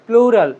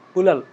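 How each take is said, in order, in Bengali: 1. শব্দটি ধীরে ও যত্ন করে বলা হয়েছে। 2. শব্দটি দ্রুত ও জড়িয়ে বলা হয়েছে।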